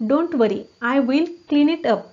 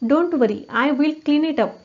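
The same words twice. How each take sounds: The two takes are said the same way.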